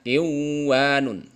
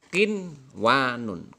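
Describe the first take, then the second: First: The n sound merges into the following w. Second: The n sound is pronounced clearly before w. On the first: The speaker calls it wrong. "tidak boleh dibaca" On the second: The speaker calls it right. "maka bacanya"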